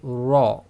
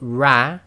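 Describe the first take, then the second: First: It is said heavy, with a rounded full mouth. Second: It is said light, with spread lips. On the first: The speaker calls it right. "with a full mouth" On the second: The speaker calls it wrong. "with a slight smile"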